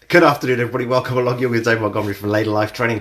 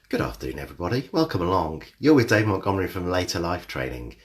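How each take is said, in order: First: It is said fast. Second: It is said slowly.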